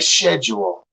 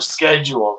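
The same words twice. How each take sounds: First: The word begins with a 'sh' sound. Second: The word begins with a 'sk' sound. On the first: This is how those other speakers say it. "they say" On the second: This is the speaker's own usual way. "instead of"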